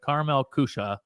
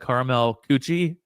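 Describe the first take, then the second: First: The second word ends with an 'uh' sound. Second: The second word ends with an 'ee' sound. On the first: The speaker calls it right. "it's pronounced Kusha" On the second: The speaker calls it wrong. "It looks like it's pronounced the caramel coochie"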